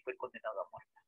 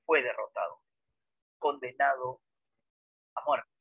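First: Dropped much softer, almost to itself; a quiet, sombre echo; soft repeat. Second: Each phrase set apart by pauses; heavy, paused delivery; spaced emphasis. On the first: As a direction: let it fall away quietly. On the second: Teacher stresses the defeat. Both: Shown as a demonstration.

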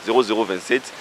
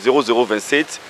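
Both takes have the same delivery.

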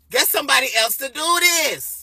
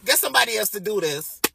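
First: Emphatic refusal. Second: Said in the usual way. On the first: Retold or imitated. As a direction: push back hard on the word do. Repeats the refusal more emphatically.

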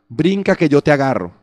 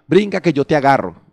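The two takes are said the same way.

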